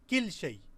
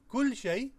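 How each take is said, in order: First: The first word has an 'i' vowel. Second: The first word has an 'u' vowel.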